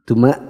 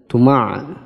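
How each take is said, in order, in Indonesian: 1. Di akhir ada hamzah yang ringan. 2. Di akhir ada bunyi ain yang berat dari tenggorokan. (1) "Itu bukan ain tapi hamzah" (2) "Nanti terlalu fasih"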